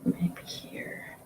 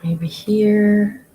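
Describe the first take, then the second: First: Breathy whisper to herself. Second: Said in the usual way. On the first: Real, not acted. Streamer musing over where to dab paint: soft whisper. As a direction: whisper it as if thinking aloud.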